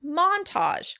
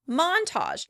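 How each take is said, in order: First: The stress is on the first syllable. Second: The same.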